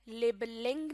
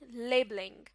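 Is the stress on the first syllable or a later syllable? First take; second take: later syllable; first syllable. First: The stress falls on a later syllable. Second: The stress falls on the first syllable. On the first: The speaker calls it wrong. "नहीं" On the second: The speaker calls it right. "Word के शुरू वाले हिस्से पर stress देकर"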